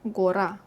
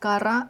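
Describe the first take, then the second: First: The first vowel sounds like full O. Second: The first vowel sounds like A. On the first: The speaker calls it wrong. "tiring to pronounce and sounds like you're yelling" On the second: The speaker calls it right. "Гора is гора"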